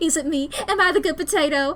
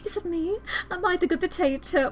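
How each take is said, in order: First: It is spoken in a Southern American accent. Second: It is spoken in a British accent. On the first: The speaker calls it right. "No, I'm a Southern Belle" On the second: The speaker calls it wrong. "I keep going into British for Stella"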